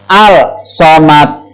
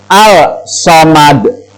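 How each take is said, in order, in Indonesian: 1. Bunyi l dilafalkan sebelum bunyi s. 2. Bunyi l dilafalkan sebelum bunyi s.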